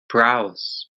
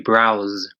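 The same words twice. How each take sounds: First: The word ends with an S sound. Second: The word ends with a Z sound. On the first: The speaker calls it wrong. "I think you said something like browse" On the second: The speaker calls it right. "it'd be browse with more of a Z sound at the end"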